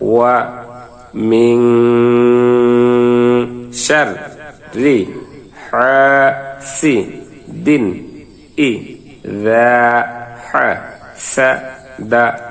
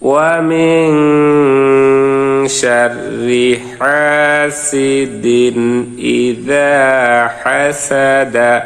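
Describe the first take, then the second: First: Each syllable is said separately with breaks. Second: The syllables flow together without breaks. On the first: "ভাঙ্গা ভাঙ্গা উচ্চারণ করবো" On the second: "মিলিয়ে পড়ি"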